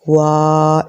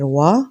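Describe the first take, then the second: First: The vowel is drawn out long. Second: The vowel is short, soft and smooth. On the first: The speaker calls it wrong. "लंबा नहीं करना, ... ऐसे नहीं पढ़ना" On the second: The speaker calls it right. "आराम से नरमी से पढ़ना है"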